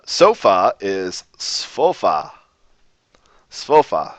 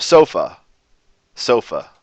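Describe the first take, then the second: First: Slow careful "svofa" with a clear f; Lojban word. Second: "sofa" ending in a lazy uh; English word. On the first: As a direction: spell out "svofa" slowly, hitting the f. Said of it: "the Lojban word for". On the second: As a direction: say "sofa" the English way, weak final uh. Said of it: "the English word". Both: Shown as a demonstration.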